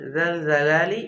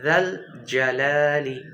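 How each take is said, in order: First: Both words begin with the same consonant sound. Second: A soft first consonant, then a hard one. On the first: The speaker calls it wrong. "দুইটাই আবার জাল জালালি এরকম না" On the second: The speaker calls it right. "প্রথমটা জাল, এটা নরম হবে, এরপর এটা জিম।"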